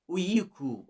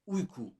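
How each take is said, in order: First: An extra vowel sound is heard in the middle. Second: Only the rounded u vowel sound is heard. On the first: The speaker calls it wrong. "something like uyku or something, which is a common mistake" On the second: The speaker calls it right. "The only vowel is u"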